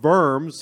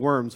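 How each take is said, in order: First: The word begins with a V sound. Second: The word begins with a W sound. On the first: The speaker calls it right. "it's actually pronounced diet of worms, the V, not the W sound" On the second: The speaker calls it wrong. "when you read it in English, it looks like the diet of worms"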